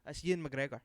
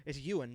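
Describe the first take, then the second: First: "Ewan" run together like "Ian"; Scottish pronunciation. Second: Said in the usual way. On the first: Shown as a demonstration. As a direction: say "Ewan McGregor" as a Scot, "Ewan" nearly "Ian". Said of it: "he would say his name".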